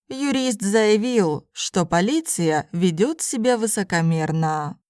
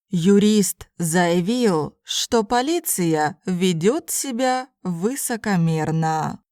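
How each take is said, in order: First: It is spoken at a normal conversational pace. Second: It is spoken slowly and carefully. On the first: "then in normal speed Russian" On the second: "first in slow Russian"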